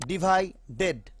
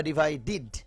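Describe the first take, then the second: First: "ডিভাইডেড" with a full "ded"; spelled DED ending. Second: "ডিভাইডিড" closing on a short "did"; DID ending. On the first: Teacher reading it as written, "ded" on "ডিভাইডেড". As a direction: sound a clear E at the end of "ডিভাইডেড". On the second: Teacher giving the spoken form, "did" on "ডিভাইডিড". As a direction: say a short I in the last syllable of "ডিভাইডিড". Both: Shown as a demonstration. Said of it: "উচ্চারণটা হবে ডিড".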